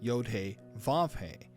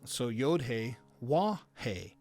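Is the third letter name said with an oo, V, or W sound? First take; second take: V; W. First: The third letter name begins with a V sound. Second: The third letter name begins with a W sound. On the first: This is the modern Hebrew pronunciation. "I've been pronouncing the Vav as Vav" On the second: This is the classical Hebrew pronunciation. "originally was a Wah, like a W in English"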